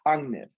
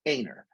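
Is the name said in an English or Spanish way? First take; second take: Spanish; English. First: The name is said with Spanish sounds, deep in the throat. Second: The name is said with English sounds. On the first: "my father used to say in Spanish. You really have to push it in the back of your throat" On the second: "It's Einar"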